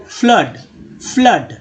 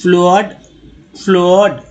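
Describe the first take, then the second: First: फ्लड as "flud", short neutral vowel; short "flud", repeated as a model; correct reading. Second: फ्लड misread as "flohd"; long o in फ्लड, "floh-ud"; wrong reading. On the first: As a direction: say फ्लड to rhyme with "blood". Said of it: "double O को आ पढ़ रहे". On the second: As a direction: sound out फ्लड with an o. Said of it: "generally तो यही लेते हैं". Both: Shown as a demonstration.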